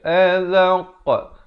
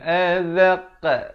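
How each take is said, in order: First: The qa sound is said with rounded lips. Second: The qa sound is said with flattened lips. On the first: The speaker calls it right. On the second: The speaker calls it wrong. "bukan azaqa, jangan pepeskan"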